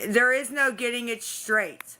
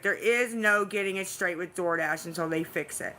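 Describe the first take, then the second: First: Emphatic insistence. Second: Said in the usual way. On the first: Real, not acted. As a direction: insist hard, pushing back. Arguing with chat, exasperated.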